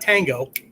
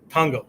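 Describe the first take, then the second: First: It is said with English vowels and stress. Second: It is said with Japanese vowels and even syllables. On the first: It names the dance. The speaker calls it wrong. "not tango. Okay, not that" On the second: It means word or words. The speaker calls it right. "Tango is the Japanese word for word"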